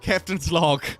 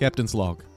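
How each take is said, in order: First: The voice sounds natural, without any effect. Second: The voice passes through an electronic voice-changing effect.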